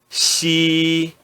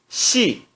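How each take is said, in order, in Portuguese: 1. O tom fica alto e nivelado. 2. O tom cai bruscamente do alto. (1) "no primeiro tom" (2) "E no quarto tom"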